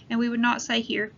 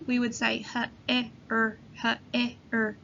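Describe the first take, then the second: First: Said in the usual way. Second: "here" split into h, e, er sounds; sounding out words. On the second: Shown as a demonstration. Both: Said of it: "when we sound out the word here".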